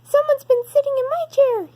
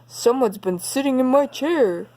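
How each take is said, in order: First: It is said in Baby Bear's small, high crying voice. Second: It is said in Daddy Bear's deep, growling voice.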